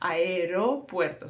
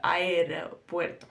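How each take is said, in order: First: Said with a Spanish accent and a soft R. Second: The same.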